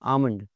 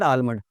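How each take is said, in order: First: No L sound is heard before the M. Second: An L sound is heard before the M. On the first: The speaker calls it right. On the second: The speaker calls it wrong.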